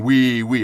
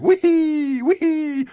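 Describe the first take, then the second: First: Said in the usual way. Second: Mocking girls' squeal, much higher. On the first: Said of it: "I was not saying". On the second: Host mimics schoolgirls on a turbulent flight in a squeaky high voice. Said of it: "How'd you like my high voice".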